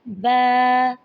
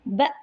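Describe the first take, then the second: First: The vowel is drawn out long. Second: The vowel is cut off with a jerk. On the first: "ज़्यादा लंबा नहीं करना" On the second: "इसको झटका भी नहीं देना"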